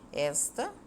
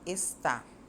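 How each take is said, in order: First: The stress is on the first syllable. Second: The stress is on the second syllable. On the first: "na palavra destacada esta, a sílaba tônica é o S" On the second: "Já na palavra está, a sílaba tônica é o tá"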